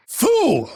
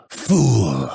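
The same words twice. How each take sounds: First: Very high, outraged cry; high-pitched combat outburst; angry battle insult. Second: Restrained scornful put-down; contemptuous battle insult. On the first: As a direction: fling the insult at the foe, pitch way up. Insult in combat, first take. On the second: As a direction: dismiss the foe on a falling note. Insult in combat, second take. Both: Acted.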